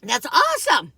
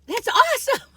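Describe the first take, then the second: First: Loud, bright burst of praise; excited praise. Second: Much higher, loud squeal of delight; squealed praise. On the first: Praising aged aunt's swimming, loud and excited. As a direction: cheer her on, really impressed. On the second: Praising aged aunt's swimming again, squealing higher. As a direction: top the first cheer with a squeal. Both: Retold or imitated. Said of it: "I was like".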